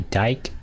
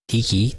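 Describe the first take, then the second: First: The name is said as one syllable. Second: The name is said as two syllables. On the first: The speaker calls it wrong. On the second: The speaker calls it right. "it's pronounced Diki, two syllables"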